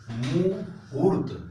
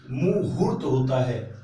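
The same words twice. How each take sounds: First: मुहूर्त drawn out very slowly, each syllable clear; slow spelled-out word. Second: Said in the usual way. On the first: Shown as a demonstration. Teacher to exam students, slow careful मुहूर्त. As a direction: stretch मुहूर्त slowly so every sound is heard. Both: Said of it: "हाँ पे बड़ा ऊ की मात्रा होगा".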